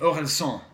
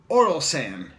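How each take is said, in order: First: The name is pronounced the French way. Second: The name is pronounced the English way.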